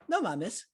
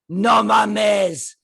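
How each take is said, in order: First: It is said with a surprised tone. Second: It is said with an angry tone.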